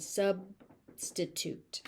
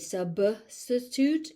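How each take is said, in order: First: "substitute" with the B stopped silently before sti; "substitute" as sub, stitute, no puff after B; unreleased B. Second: "Substitute" as sub-buh-stitute, the B popped; exaggerated wrong B burst in "Substitute"; over-aspirated B. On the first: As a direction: close on the B in "substitute" without releasing it. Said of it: "You want". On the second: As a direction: release the B in "Substitute" with an extra uh. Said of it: "don't aspirate". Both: Shown as a demonstration.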